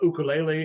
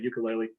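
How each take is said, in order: First: The word is said in its original form. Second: The word is said in its common everyday form. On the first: "is the pronoun- correct way to pronounce it" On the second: "people say ukulele"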